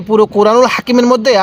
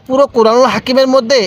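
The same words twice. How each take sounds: The two takes are said the same way.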